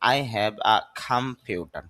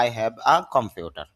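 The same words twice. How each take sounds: First: "I have a computer" slow, in proper English sounds; "I have a computer" pronounced as in English; correct English pronunciation. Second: "I have a computer" with a Bangla accent; "I have a computer" in Bengali-accented English; wrong Bangla-style English. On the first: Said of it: "তখন বলতে হবে যে". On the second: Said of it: "এটা হবে না". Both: Shown as a demonstration.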